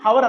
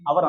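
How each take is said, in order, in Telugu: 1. ఈ పదం స్పష్టమైన h ధ్వనితో మొదలవుతుంది. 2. ఈ పదం నేరుగా అచ్చు ధ్వనితో మొదలవుతుంది. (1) "దీన్ని మనం హవర్ అనకూడదు" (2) "దీన్ని అవర్ అనాలి"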